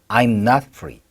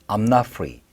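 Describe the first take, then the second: First: It is said with the pitch slightly raised. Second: It is said casually at a relaxed pitch. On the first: "약간 중톤으로 올릴 때는" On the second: "편한 사이 때 좀 발음할 때는"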